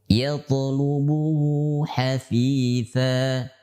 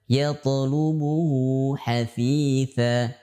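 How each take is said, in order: Both takes have the same delivery.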